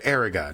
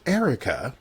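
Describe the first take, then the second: First: "Eriga" said with a hard g before the final a; name with hard G. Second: Said in the usual way. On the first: Shown as a demonstration. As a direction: say "Eriga" with g, not k. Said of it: "Not Erica". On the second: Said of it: "Not Erica, a lovely name".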